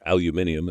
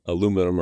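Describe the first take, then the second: First: It is said the British way, five syllables. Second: It is said the American way, four syllables.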